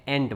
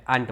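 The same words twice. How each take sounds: First: એન્ટ as "ANT", like the insect; American pronunciation. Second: આન્ટ as "AHNT", long ah; British pronunciation. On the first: Teacher showing the American form, American pronunciation. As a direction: say એન્ટ with a front "ae" vowel. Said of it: "અમેરિકાવાળા એને એન્ટ બોલે". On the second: Teacher showing word for relatives, British pronunciation. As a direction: say આન્ટ with an open long vowel. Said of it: "આન્ટ બોલાય એને". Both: Shown as a demonstration.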